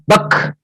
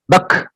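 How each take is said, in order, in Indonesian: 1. Bunyi k akhir diakhiri dengan hembusan napas. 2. Bunyi k akhir diakhiri dengan hembusan napas.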